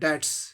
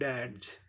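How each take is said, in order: First: The word ends with a voiceless s sound. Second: The word ends with a voiced z sound. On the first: The speaker calls it wrong. "साधारणतः हम लोग स को उच्चारण कर डैड्स" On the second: The speaker calls it right. "लेकिन सही उच्चारण क्या होगा, ... उच्चारण ज होगा"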